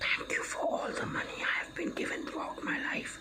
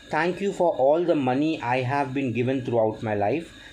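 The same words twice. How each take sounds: First: It is whispered slowly and very quietly. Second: It is spoken aloud in a normal voice.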